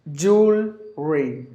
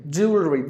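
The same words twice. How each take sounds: First: Split into syllables. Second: Said in the usual way. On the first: Shown as a demonstration. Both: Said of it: "the current English is without the L".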